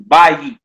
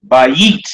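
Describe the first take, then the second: First: "Bayit" with a firm first syllable, BA-yit; stress on BA in bayit. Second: "Bayit" with a rising, punched second syllable, ba-YIT; stress on YIT in bayit. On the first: Teacher repeating the accented word for students, "Bayit" stressed on BA. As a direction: punch "Ba" and let "yit" follow lighter. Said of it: "emphasize this first syllable". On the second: Teacher moving the accent to the yod, "Bayit" stressed on YIT. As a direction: hit "yit" harder than "Ba". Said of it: "You would emphasize right there". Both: Shown as a demonstration.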